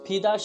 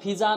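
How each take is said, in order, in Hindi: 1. बीच का व्यंजन 'd' की तरह बोला जाता है। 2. बीच का व्यंजन 'z' की तरह बोला जाता है। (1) "फिदा शब्द है" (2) "फिजा नहीं है शब्द"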